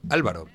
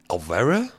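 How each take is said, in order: First: The name is said with a native Spanish pronunciation. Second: The name is said with an English-speaker's pronunciation. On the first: The name's owner is correcting it. The speaker calls it right. "no, amigo" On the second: Someone else is trying to say the name. The speaker calls it wrong. "Les cuesta mucho a los angloparlantes"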